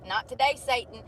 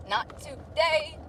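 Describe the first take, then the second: First: Said in the usual way. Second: Lazy drawn-out no; slow drawn-out refusal. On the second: Pretend. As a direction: stretch out not today slowly, higher.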